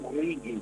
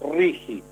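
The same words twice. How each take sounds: First: The G is a hard g sound. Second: The G is a throaty j sound. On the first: The speaker calls it wrong. "Los porteños hablan del RIGI y está mal" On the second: The speaker calls it right. "La G con la I se pronuncia como J"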